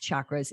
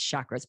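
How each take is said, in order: First: The word begins with a ch sound. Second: The word does not begin with a ch sound. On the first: This is the original, correct pronunciation. The speaker calls it right. "but it is chakras. It is C H" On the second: This is how it is commonly said in the United States. The speaker calls it wrong. "All of us yogis in, you know, the United States, it's chakras"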